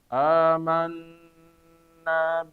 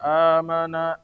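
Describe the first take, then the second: First: It is read slowly with a long nasal hold. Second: It is read quickly with a short nasal hold. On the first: "Kalau misalnya kita baca lambat" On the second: "kalau kita baca cepat"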